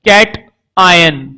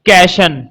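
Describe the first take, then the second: First: The word is split into two separate parts. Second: The word is said joined as one word. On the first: The speaker calls it wrong. "इसको भी कुछ लोग दो तरह से बोलते हैं" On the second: The speaker calls it right. "पॉजिटिव charge के लिए वर्ड होता है कैशन"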